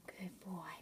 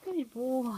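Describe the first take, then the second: First: Soft whispered praise. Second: Said in the usual way. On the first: Real, not acted. Mother whispering praise to the cat. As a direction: breathe the praise without voice.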